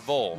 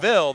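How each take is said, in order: First: The ending has a dark 'uh' vowel, like 'vull'. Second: The ending has a clear 'ih' vowel, like 'vill'. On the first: This is how the ending is said in the other town. "there it's Vol" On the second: This is how the ending is said in one town. "If here it's Ville"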